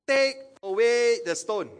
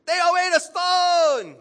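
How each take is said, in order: First: Slow, high, loud order; commanding order. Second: Very high, drawn-out full shout; shouted command. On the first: Jesus ordering the tomb opened, loud measured command. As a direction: order it slowly and firmly, voice raised. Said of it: "Jesus ordered the stone". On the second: Jesus ordering the tomb opened, full-voiced shouted command. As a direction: bellow the order, stretching the words. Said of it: "Or Jesus say". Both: Acted.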